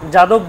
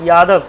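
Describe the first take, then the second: First: The word begins with a j sound. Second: The word begins with a y sound. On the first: This is the everyday Bengali pronunciation. "বাংলায় আমরা কি বলি যাদব" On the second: This is the Sanskrit or Hindi pronunciation. "সংস্কৃতে বলবো বা হিন্দিতে ইয়াদব"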